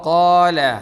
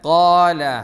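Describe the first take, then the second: First: The first sound is heavy, with a full mouth. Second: The same.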